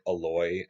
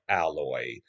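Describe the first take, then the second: First: It does not sound like the word alloy. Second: It sounds like the ordinary word alloy. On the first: The speaker calls it right. "I think it's like Aloy" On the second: The speaker calls it wrong. "Her name is spelled like Alloy, but I've heard it's not pronounced that way"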